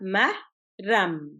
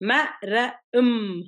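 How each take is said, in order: First: The word is split into two syllable chunks. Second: The word is split into three separate letter sounds. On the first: The speaker calls it right. "சிலபிளா பிரிச்சீங்கடா ம, ரம் என்று சொல்லிக்கல ஈஸியா இருக்கு" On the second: The speaker calls it wrong. "ம, ர, ம் ரெண்டுக்குல வந்தா சரியா இருக்காது"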